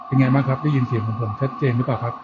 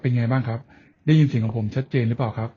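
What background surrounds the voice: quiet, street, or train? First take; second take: train; quiet. First: The voice is heard with train noise around. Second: The voice is heard with quiet surroundings. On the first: "sky train ครับบนรถไฟฟ้า" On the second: "ในที่เงียบ"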